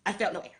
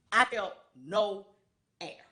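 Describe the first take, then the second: First: Said in the usual way. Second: I felt no, pause, then air; slow emphasis. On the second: Real, not acted. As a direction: drag out I felt no before landing on air.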